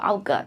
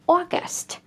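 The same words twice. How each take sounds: First: The first vowel is not a long 'or' sound. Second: The first vowel is a long 'or' sound. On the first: The speaker calls it wrong. "A lot of my students pronounce like August" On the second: The speaker calls it right. "A U is usually pronounced or, a long or here"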